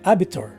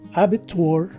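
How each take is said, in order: First: The last syllable ends in a 'tor' sound. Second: The last syllable ends in a 'twor' sound. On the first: "the letter W is dropped and the letter O takes a slightly stressed O" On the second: "the twar sound applies except that instead of the circumflexed A sound, it takes a slightly stressed O sound"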